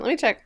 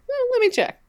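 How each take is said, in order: First: Said in the usual way. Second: Squeaky high mock mutter; Eh, let me check in a jokey high voice; silly high put-on voice. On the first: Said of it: "Hang on". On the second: Shown as a demonstration. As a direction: play it as a goofy high-voiced aside.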